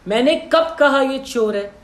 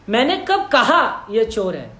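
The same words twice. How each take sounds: First: The stress is on कब. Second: The stress is on कहा.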